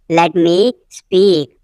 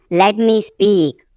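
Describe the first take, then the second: First: "let me", a pause, then "speak"; slow it down, isolating "speak"; slow repeat. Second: Said in the usual way. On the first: Shown as a demonstration. Teacher repeating for learners, slow and split.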